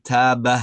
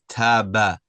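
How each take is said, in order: First: "taba" slow with a breathy ha added; "taba" with a little expulsion of air at the end; wrong taba. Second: "taba" clean, no breath at the end; "taba" ending crisply; correct taba. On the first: Teacher imitating the student's mistake, slow "taba" with ha. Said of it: "You're saying taba". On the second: Teacher modelling the fix, clean "taba". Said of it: "it should be taba". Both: Shown as a demonstration.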